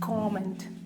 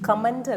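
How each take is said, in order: First: The first vowel is an 'o' sound. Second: The first vowel is a short 'uh' sound. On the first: The speaker calls it right. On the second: The speaker calls it wrong.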